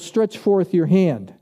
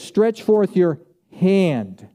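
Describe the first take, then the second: First: It is said softly, like a mild request. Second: It is said firmly, like a forceful command. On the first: It is an optional suggestion. The speaker calls it wrong. "it's like I'm thinking Jesus said, well" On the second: It must be obeyed at once. The speaker calls it right. "No, I think he did this. ... That was a command"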